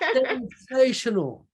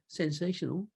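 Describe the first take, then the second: First: It is said with strong, lively feeling. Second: It is said flatly, without feeling. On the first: The speaker truly feels great. The speaker calls it right. "With all the feelings" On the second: The feeling is only a routine reply. The speaker calls it wrong. "I don't say sensational"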